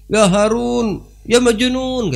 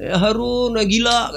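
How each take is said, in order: First: High loud taunt; mocking shout back. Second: High taunting call; mocking call. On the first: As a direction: fling the insult back loudly. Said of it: "Dibalas sama Harun, sama si Buhlul". (balasan ejekan keras tinggi) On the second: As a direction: throw the insult back high. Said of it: "kata dia". (ejekan tinggi)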